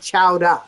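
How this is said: The final r sound is dropped. "that New England accent where they they say chowder. They say chowder"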